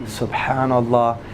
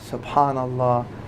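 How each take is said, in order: The two takes are said the same way.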